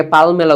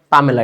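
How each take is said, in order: First: পালমেলা said with an l before the m; the wrong way students say পালমেলা; common mispronunciation. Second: পামেলা said with no l, pa-me-la; the right way, পামেলা without the l; correct pronunciation. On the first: Teacher mimics the students' mistake পালমেলা. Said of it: "তোমরা অনেকে পালমেলা উচ্চারণ করো". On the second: Teacher corrects the class on পামেলা. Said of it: "এই উচ্চারণটা হচ্ছে কি? পিএএল দিয়ে". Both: Shown as a demonstration.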